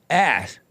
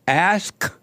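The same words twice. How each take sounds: First: The K and S swap, sounding like 'ax'. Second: The K sound is clearly pronounced at the end. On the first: "they don't hit the K" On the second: "because you're supposed to hit the K"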